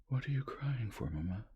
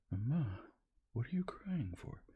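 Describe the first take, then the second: First: Put-on higher, puzzled child asking; child's question. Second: Higher, whispery, on the edge of tears; tearful child. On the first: Boy asking his weeping mother why she cries. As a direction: ask it plainly like a curious boy. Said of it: "now wide awake". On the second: Son pleading with his crying mother, tearfully. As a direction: let the boy's voice crack toward tears. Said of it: "He raised his tearful voice". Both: A narrator's reading.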